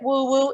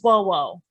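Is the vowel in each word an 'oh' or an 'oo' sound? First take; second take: oo; oh. First: Each word is said with an 'oo' vowel. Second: Each word is said with an 'oh' vowel. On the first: The speaker calls it wrong. "Some of you come out, pronounce it woo woo" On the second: The speaker calls it right. "It is whoa whoa"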